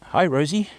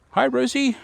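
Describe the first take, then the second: First: Said in the usual way. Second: High sing-song chicken call. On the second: Real, not acted. Greeting her chickens.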